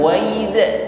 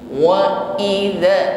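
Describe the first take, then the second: First: The glottal stop before 'idza' is weak and soft. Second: The glottal stop before 'idza' is strong and firm. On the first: The speaker calls it wrong. "bukan wa idza" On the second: The speaker calls it right. "kuat tekanan hurufnya"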